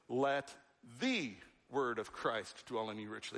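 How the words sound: The stress falls on the word 'the'. It is the one definitive word, not just any word. "It's the word, definitive, not a word"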